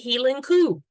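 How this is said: It is said with Scottish vowels. The speaker calls it right. "you say Hieland coo"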